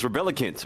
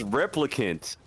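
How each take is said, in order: First: The name is said with an extra middle syllable. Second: The name is said with three short syllables. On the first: The speaker calls it wrong. "I just said it wrong again" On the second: The speaker calls it right. "It's Replicant"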